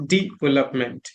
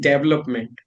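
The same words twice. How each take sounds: First: "development" as "dee-VEL-up-ment"; small E sound. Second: "development" as "DEV-lup-ment"; short e, first syllable stressed in "development"; Indian pronunciation. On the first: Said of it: "the small E sound". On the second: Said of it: "it was always". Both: Shown as a demonstration.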